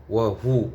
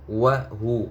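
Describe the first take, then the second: No difference in how they are said.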